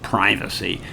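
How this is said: The word is said with an American pronunciation. "in the United States they'll call that um"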